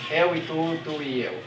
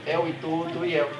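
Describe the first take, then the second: No difference in how they are said.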